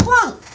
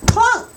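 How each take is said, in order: Both takes have the same delivery.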